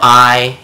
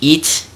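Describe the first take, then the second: First: The vowel is said like English 'eye'. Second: The vowel is said like English 'ee'. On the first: The speaker calls it wrong. "It never goes like that" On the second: The speaker calls it right. "It's eat"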